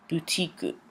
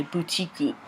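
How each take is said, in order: First: Boutique said softly as puutiku; Japanese boutique. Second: Boutique said as puutiku, with a final u; Japanese boutique. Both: Shown as a demonstration. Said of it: "So they say boutique".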